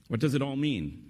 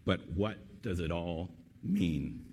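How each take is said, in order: First: Higher-pitched, quicker rhetorical question; lifted voice, falling at the end; raised question. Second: Slow, measured question with pauses; hushed, deliberate wondering. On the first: Real, not acted. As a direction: put the question briskly to the listeners. Speaker repeats the question as his own. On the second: A narrator's reading. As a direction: draw out WHAT and MEAN, thoughtfully. Susan's solemn question, read slowly.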